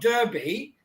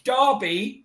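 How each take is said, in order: First: The word is said with an American pronunciation. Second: The word is said with a British pronunciation. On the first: This is how the visitor said the town's name. The speaker calls it wrong. "not Derby" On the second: This is how locals say the town's name. The speaker calls it right. "it's Derby"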